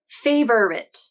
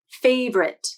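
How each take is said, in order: First: The word is said with three syllables. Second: The word is said with two syllables. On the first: "three syllables" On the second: "the two-syllable transcription"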